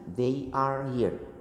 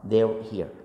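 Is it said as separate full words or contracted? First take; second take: full; contracted. First: Each word is said fully and separately. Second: The first two words merge into one quick syllable.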